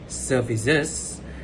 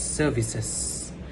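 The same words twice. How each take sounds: First: The word ends with a voiced z sound. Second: The word ends with a voiceless s sound. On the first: "instead of using services" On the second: "He used s instead of z"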